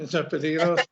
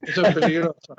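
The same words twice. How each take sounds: First: Said in the usual way. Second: Lo dice entre risas; riendo. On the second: Real, not acted. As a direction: se le escapa la risa al advertir. Reacción riendo al locutor. (riendo, advierte al locutor que eso es peligroso)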